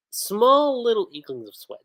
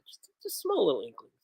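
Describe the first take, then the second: First: "small" pushed up high with a falling tune; stress on small. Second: "small little inklings" said much softer as an aside; soft repeat. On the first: Describing Honey's nervous sweat, punching "small" high. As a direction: lean hard on "small" with a high fall. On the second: Repeating the sweat detail to viewers, much softer. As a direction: let "small" fall away quietly, under the breath. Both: Real, not acted.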